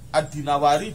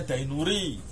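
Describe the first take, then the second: First: The name is said as Dinawari. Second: The name is said as Dainuri. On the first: The speaker calls it right. "yang benar Imam Ad-Dinawari" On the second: The speaker calls it wrong. "Padahal bukan Imam Dainuri"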